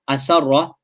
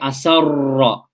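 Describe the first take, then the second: First: The R is one short tap without rolling. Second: The R is rolled with several tongue taps. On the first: The speaker calls it right. "without that repeat, repetition of the tongue, it's one ra" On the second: The speaker calls it wrong. "that's numerous ras"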